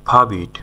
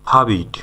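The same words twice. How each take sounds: The two takes are said the same way.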